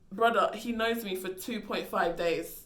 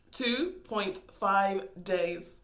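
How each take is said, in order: First: Said in the usual way. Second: "Two point five days" spelled out very slowly, each word weighed; slow emphatic repeat. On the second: Shown as a demonstration. To the audience, stressing how short it was, slow.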